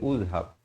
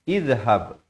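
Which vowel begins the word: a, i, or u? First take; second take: u; i. First: The word begins with a u vowel. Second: The word begins with an i vowel. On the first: The speaker calls it wrong. "jangan baca uzhab" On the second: The speaker calls it right. "Yang betulnya ialah izhab"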